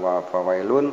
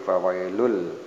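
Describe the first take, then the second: First: The word ends with a clear n sound. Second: The n merges into a following l sound. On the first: The speaker calls it wrong. "bukan wa fawailun" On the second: The speaker calls it right. "tanwin doma kemudian berhadapan dengan huruf lam sehingga dibacanya ... fawailul"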